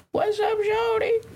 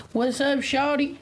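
First: High, slow pimp greeting; high swagger pimp. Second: Slow pimp swagger with grill in; wearing teeth grill. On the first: Pretend. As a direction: play a flashy pimp calling out. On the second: Real, not acted. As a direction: drawl it like a rapper with a grill. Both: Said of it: "we got a grill in our mouth".

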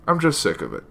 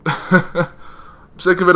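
First: Said in the usual way. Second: Higher, slow, laughing through "I'm sick of it"; drawn-out laughing sigh of "sick of it". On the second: Real, not acted. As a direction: laugh out the words in exasperation. Repeats complaint with a laugh.

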